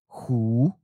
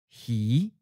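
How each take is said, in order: First: The word ends in a u-like vowel. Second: The word ends in an i-like vowel. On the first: "then followed it with the common north or the seacoast leaning accent" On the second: "We'll first read the common south or inland leaning pronunciation"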